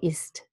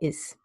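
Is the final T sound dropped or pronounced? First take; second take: pronounced; dropped. First: The final T sound is clearly pronounced. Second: The final T sound is dropped. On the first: "I don't say ist" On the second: "I say is"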